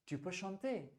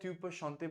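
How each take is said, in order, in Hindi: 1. अंत में आवाज़ चढ़ती है। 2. अंत में आवाज़ गिरती है। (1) "ऐसे बोलिए टोन लीजिए" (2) "वो एक वाक्य बन जाएगा"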